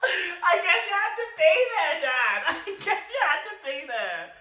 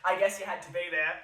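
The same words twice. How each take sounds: First: High, loud, cracking with laughter; laughing harder. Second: Laughing. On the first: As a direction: fall apart laughing on the repeat. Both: Real, not acted. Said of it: "I'm just laughing".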